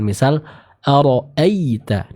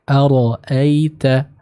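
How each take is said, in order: First: The 'ai' sound is pressed with emphasis. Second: The 'ai' sound flows softly and lightly. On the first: The speaker calls it wrong. "jangan diberi penekanan ... ini kurang tepat" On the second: The speaker calls it right. "Yang tepat cukup dialirkan dengan lembut serta dibaca dengan tipis"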